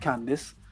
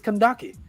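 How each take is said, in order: First: The name is said as Candace. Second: The name is said as Kandake. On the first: The speaker calls it wrong. "It's not Candace" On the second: The speaker calls it right. "it's Kandake"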